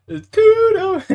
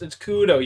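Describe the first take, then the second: First: It's Kudo in a very high squeak; squeaky mock voice. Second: Said in the usual way. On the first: Mocks the name in high voice. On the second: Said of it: "not Cujo".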